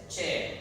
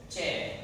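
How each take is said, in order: No difference in how they are said.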